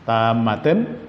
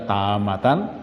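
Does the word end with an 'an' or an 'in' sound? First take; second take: in; an. First: The word ends with an 'in' sound. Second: The word ends with an 'an' sound. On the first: "dibesarkan aja. Tamatin" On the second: "Tapi ada yang baca tamatan"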